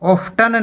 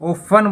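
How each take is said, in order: First: The t sound is pronounced in the middle. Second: The t sound is left out entirely. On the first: The speaker calls it wrong. "यहां पे ऑफ्टन नहीं बोला जाएगा" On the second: The speaker calls it right. "ओफन बोला जाएगा"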